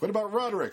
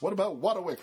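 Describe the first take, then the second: First: The name is said with clear R sounds. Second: The name is said with W sounds for R.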